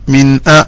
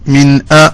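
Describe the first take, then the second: Both takes have the same delivery.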